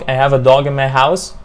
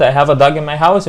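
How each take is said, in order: First: DOG said long and open in the sentence; long vowel. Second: DOG said as "dug" in the sentence; wrong short vowel. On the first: Teacher modelling the correct sentence, long-vowel DOG. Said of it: "يبقى هنا dog". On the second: Teacher showing the mistake meaning a hole, short-vowel DOG. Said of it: "يبقى عندي حفرة في بيتي". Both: Shown as a demonstration.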